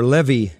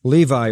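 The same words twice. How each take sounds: First: Levi said as the name is pronounced today; present-day pronunciation. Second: Said in the usual way. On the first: Shown as a demonstration. Preacher giving the other form of a disciple's name, Levi in today's pronunciation. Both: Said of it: "as the name is pronounced today".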